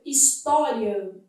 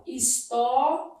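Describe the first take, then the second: First: Said in the usual way. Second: "história" slowly broken into syllables, pausing after "tó"; "história" sounded out slowly, syllable by syllable; split into syllables. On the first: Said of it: "admite esse tipo de processo". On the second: Shown as a demonstration. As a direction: say "história" in separate pieces, his-tó, ri, a. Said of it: "esse tipo de processo aqui, ó".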